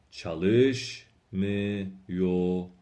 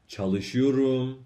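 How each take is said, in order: First: چالش میوروم very slow, چالش stressed. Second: چالشیوروم slow, stress at its end. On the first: Teacher models negative form for students, slow and stressed. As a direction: stress چالش, then drop through میوروم. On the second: Teacher models positive form for students, end-stressed. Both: Shown as a demonstration.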